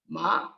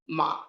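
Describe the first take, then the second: First: The pitch rises through the syllable. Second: The pitch stays level throughout. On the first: "And the rising tone" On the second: "this is again a level tone"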